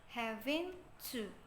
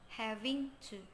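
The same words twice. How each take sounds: First: One sound in the phrase is dropped. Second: Every sound in the phrase is pronounced. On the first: "the fifth here is having to" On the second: "not having to"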